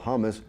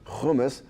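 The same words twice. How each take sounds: First: It is said with an American pronunciation. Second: It is said with a Middle Eastern pronunciation. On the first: "it's Americanized" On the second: "in the Middle East, they call hummus"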